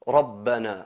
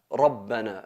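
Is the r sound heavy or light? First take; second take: heavy; heavy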